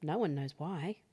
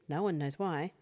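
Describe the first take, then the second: No difference in how they are said.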